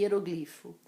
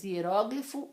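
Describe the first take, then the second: First: "hieroglifo" as ie-ro-GLI-fo; "hieroglifo" stressed next to last. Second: "hieróglifo" as ie-RÓ-gli-fo; "hieróglifo" stressed third from last. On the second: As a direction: lean on the open RÓ of "hieróglifo". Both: Shown as a demonstration. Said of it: "As duas pronúncias são corretas".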